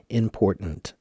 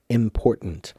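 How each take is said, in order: The two takes are said the same way.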